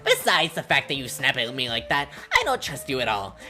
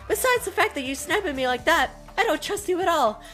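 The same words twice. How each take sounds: First: It is said in a voice other than Monami's. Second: It is said in Monami's character voice.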